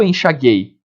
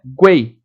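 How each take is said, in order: First: "enxaguei" said "en-xa-GHEI", hard g straight into e; wrong silent U. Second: "Guei" as "gwei", with the U glide heard; "Guei" with g sliding through U into ei; U pronounced. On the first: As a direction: drop the U sound from "enxaguei". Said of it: "Eu não falo enxaguei". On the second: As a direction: round the lips for the U in "Guei". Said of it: "O U é pronunciado". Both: Shown as a demonstration.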